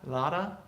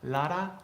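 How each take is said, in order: No difference in how they are said.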